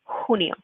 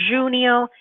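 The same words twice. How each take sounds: First: The word begins with an h sound. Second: The word begins without an h sound. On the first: The speaker calls it right. "that you're saying the h sound" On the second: The speaker calls it wrong. "or junio"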